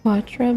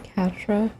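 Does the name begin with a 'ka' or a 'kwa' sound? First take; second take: kwa; ka. First: The name begins with a 'kwa' sound. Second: The name begins with a 'ka' sound. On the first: The speaker calls it wrong. "It's like Quatra" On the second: The speaker calls it right. "but it's a Catra. Just say cat"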